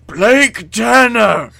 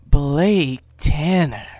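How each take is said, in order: First: Hammed-up high, very loud shout, drawn out; crying out. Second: Controlled call, loud and drawn out, near normal pitch; crying out. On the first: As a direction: bellow the name slowly, way over the top. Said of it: "a familiar voice cries". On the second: Acted. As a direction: call the name slowly and firmly. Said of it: "A familiar voice cries".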